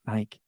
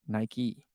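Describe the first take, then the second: First: Nike as "nyke", rhyming with bike; one-syllable pronunciation. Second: Nike as "NY-kee", with a clear final "ee"; two-syllable pronunciation. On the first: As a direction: drop the final "ee" of Nike. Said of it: "It's not Nike". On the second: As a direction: sound both syllables of Nike, ending in "kee". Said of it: "it's Nike". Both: Shown as a demonstration.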